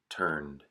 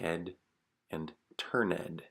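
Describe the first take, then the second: First: The ending blends in without an extra syllable. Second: The ending is a separate syllable, like ed. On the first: The speaker calls it right. "the correct pronunciation" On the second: The speaker calls it wrong. "to pronounce it as ed"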